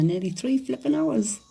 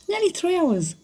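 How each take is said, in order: First: Said in the usual way. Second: Disbelieving squeal on NEARLY; incredulous, much higher. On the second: Real, not acted. To viewers about her long TikTok live, incredulous high repeat.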